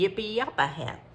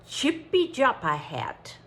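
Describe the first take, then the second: First: The name is read with German letter sounds. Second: The name is read with English letter sounds. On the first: "if it's German, it would be" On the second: "I'm guessing at the pronunciation of this"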